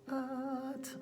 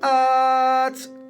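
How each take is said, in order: First: The word is said very quietly. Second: The word is said at normal talking volume. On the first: "Little tiny, as quiet as you can" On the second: "True voice, clean. Just relax like you're chatting"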